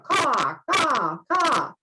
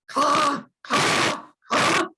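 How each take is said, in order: First: The voice is plain and smooth. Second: The voice is raspy, from the throat.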